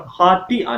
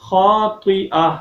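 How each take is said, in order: First: "خَاطِئَةٍ" with a thin, light t; ta instead of taa. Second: "خَاطِئَةٍ" slow, with a full emphatic t; heavy taa. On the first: Teacher shows what not to read, "خَاطِئَةٍ" with thin t. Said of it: "تا کی sound نہ آئے". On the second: Teacher models the correction, "خَاطِئَةٍ" slow with heavy t. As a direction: draw out the vowel and thicken t in "خَاطِئَةٍ". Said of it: "طا کی جگہ". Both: Shown as a demonstration.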